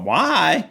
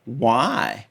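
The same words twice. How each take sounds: First: A higher, indignant "Why?" thrown back in disbelief; higher disbelieving "Why?" in reply; incredulous why. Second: Quiet scoffing "Why?" tossed off; dismissive why. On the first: Designer silently answering the New Yorkers, indignant disbelief. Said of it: "And I thought". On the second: New York crew quietly scoffing at a Tennessee origin. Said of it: "they just looked at me and said". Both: Retold or imitated.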